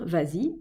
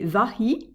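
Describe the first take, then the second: First: A z sound links the two vowels. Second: The two vowels meet with no linking sound. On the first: The speaker calls it right. "rajouter le S qui permet de lier les deux voyelles" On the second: The speaker calls it wrong. "si je disais vahi et donhan, ça serait vilain, ça ferait un hiatus"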